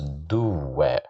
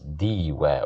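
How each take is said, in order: First: The first vowel is an u sound. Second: The first vowel is an i sound. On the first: "So we can't pronounce it as duwa" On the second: "We can't pronounce it as diwa"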